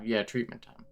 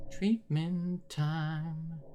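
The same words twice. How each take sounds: First: Said in the usual way. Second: Treatment time drawn out very slow, higher and softer; eerie slow singsong menace; creepy asylum voice. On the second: Acted. Repeats phrase then spooks it.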